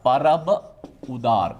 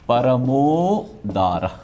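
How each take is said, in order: First: Two separate words are said apart. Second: The words are merged into one joined form. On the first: "ये संधि विच्छेद हुआ" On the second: "संधि किया तो परमोदार"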